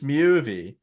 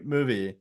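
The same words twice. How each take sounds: First: "movie" with a Swedish myoo vowel; "movie" with an umlauted first vowel, like Swedish; Swedish-sounding movie. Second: Said in the usual way. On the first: Real, not acted. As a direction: say "movie" as "myoovie", Swedish-style. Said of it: "that's my, uh, Swedish coming out". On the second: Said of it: "Swedish coming out there".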